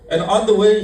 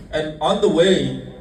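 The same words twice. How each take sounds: First: And on the way said higher and louder; emphatic. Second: Slow, measured and on the way; drawn-out and on the way with a falling end. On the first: Preacher repeating the phrase to the congregation, louder and higher. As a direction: punch out And on the way. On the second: Preacher setting up the story, slowly. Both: Shown as a demonstration.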